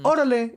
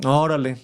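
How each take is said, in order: First: It is said in a calm, agreeing tone. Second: It is said in a flat, sarcastic tone. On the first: The speaker agrees. "it could be like, all right, or like, I agree" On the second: The speaker does not really care. "It would be very sarcastic"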